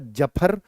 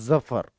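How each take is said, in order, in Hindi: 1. पहला व्यंजन सामान्य j की आवाज़ है। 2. पहला व्यंजन भनभनाती z की आवाज़ है।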